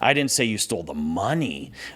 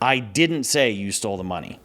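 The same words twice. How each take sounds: First: The stress is on "money". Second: The stress is on "didn't".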